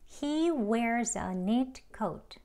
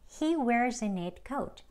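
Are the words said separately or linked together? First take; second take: separately; linked. First: Each word is said separately and carefully. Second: The words flow together in one stream. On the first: "책 발음이요" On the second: "대화 발음으로 ... 흐르는 대로 쭉"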